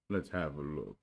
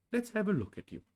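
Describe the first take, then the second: First: Resigned, mournful offer; lightly voiced glum donkey; gloomy Eeyore. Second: Much higher friendly bear; high Pooh bear voice. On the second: Acted. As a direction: brightly offer to help.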